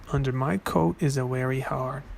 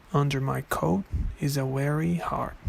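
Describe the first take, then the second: The two takes are said the same way.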